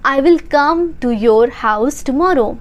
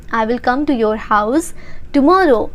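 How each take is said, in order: First: Said in the usual way. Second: Teacher chunking the sentence, pausing before tomorrow; slow, pause before tomorrow. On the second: Shown as a demonstration. English teacher drilling learners, chunked with a pause before tomorrow. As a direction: split it, pause, then tomorrow. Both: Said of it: "repeats sentence for practice".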